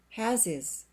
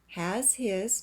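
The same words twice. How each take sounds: First: The H in 'his' is dropped. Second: The H in 'his' is pronounced.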